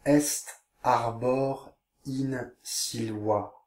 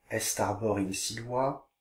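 First: Slow, drawn-out Latin reading. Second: Said in the usual way. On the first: Shown as a demonstration. Teacher reading the caption slowly to pupils. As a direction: stretch every word slowly. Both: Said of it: "Je vous lis la légende".

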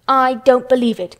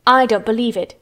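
First: I DON'T BELIEVE IT, louder and more forceful; emphatic disbelief. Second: Louder, sour disbelief. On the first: Mary repeats her doubt to Colin, "don't believe" said emphatically. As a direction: hit "don't believe" hard, voice raised. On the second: Mary doubts Colin's illness, sourly. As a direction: dismiss it sourly. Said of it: "said Mary sourly". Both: A narrator's reading.

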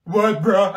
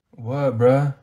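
First: "What, bruh?" repeated higher and louder in scorn; mocking echo. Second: Low, offhand "What, bruh?"; lazy backtalk. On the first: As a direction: throw his words back at him. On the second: Acted. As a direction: toss it off like a bored student. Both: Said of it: "I'm not your bruh".

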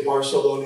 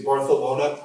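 First: Barcelona with a clear s sound, bar-seh-LO-na; plain Spanish s. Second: Barcelona with the c as th, bar-theh-LO-na; Castilian lisp. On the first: Preacher giving the unlisped version of Barcelona, plain s. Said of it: "you don't say Barcelona". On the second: Preacher showing the congregation the Spanish lisp in Barcelona, th for s. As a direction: lisp the c in Barcelona like a Madrid local. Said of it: "you say Barcelona". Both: Shown as a demonstration.

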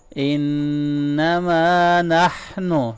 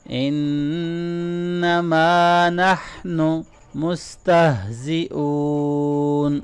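First: إِنَّمَا with a nasal doubled noon and نَحْنُ with a ha from the throat; ghunna, throaty ha. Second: إِنَّمَا with a nasal noon and نَحْنُ with a throaty ha; ghunna, throaty ha. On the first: Teacher demonstrating ghunna and ha to students. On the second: Teacher repeating after explaining ghunna and ha. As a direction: recite إِنَّمَا نَحْنُ مُسْتَهْزِئُونَ slowly. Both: Shown as a demonstration. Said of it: "نون مشدد پہ غنہ کریں".

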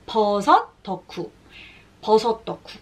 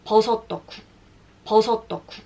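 No difference in how they are said.

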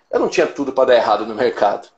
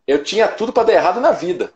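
First: Said in the usual way. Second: Higher pitch, landing firmly on "na vida"; ênfase na correção. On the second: Retold or imitated. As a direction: stress "na vida" as the real answer, falling at the end. Correção enfática, mercado vira vida. (ênfase em "na vida", tom mais alto)

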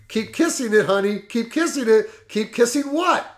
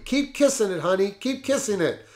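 First: The attorney puzzling it over, pitched higher, rising on what; lightly voiced suspicious lawyer, half-hearted; a touch of worry building to a baffled question; mock worried repeat. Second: Lightly voiced cry of passion, pitched higher but not loud; a hint of the secretary crying out mid-passion; understated ecstatic outcry; mild mock passionate cry. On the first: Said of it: "he must have become worried". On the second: A narrator's reading. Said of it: "cried out loudly".

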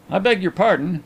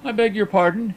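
First: Mildly raised, good-humoured apology. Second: Higher-pitched, stiff apology. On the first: Host apologizes to annoyed visitor, good-humoured. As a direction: apologize easily, without taking offence. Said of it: "with perfect good humour". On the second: Visitor reddens and apologizes to blind friend, stiff. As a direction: apologize formally, embarrassed. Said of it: "he concluded stiffly". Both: A narrator's reading.

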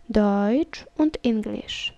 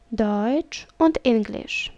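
Both takes have the same delivery.

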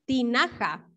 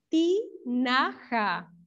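First: Said in the usual way. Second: "Tinaja" very slowly, in three separate syllables. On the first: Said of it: "Así se llama". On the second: Shown as a demonstration. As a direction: sound out "Tinaja" as ti... na... ja. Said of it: "las sílabas de tinaja". ("Tinaja" muy lento, sílaba por sílaba)

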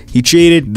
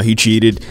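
First: "cheated" punched high and loud; He cheated, louder. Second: Said in the usual way. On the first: Real, not acted. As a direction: hit "cheated" up high with outrage. Repeats the line with outrage.

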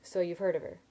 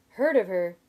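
First: Understated, resigned sigh of a line; sighed resignation. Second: Loud, incredulous echo; going shrill. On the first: Narrator conceding they know the lender, sighed resignation. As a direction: say it with a small weary sigh. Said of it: "I sighed". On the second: Sim incredulous at his friend's understatement, going shrill. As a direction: throw it back loudly, voice going shrill. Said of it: "his voice going shrill". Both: A narrator's reading.

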